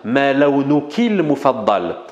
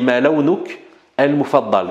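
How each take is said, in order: First: The words are linked smoothly together. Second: The words are said separately, not linked. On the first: The speaker calls it right. "c'est de faire la liaison quand même" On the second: The speaker calls it wrong. "Ou alors, tu dis"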